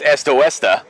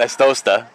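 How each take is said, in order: First: The name is said with four syllables. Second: The name is said with three syllables. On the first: The speaker calls it right. "So officially that's Estoesta" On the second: The speaker calls it wrong. "not Estosta"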